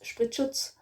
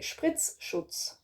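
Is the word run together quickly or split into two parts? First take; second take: run together; split. First: The word is said quickly as one unit. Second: The word is split into two separate parts. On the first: "saying the whole word like really fast" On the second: "You can say it as two words"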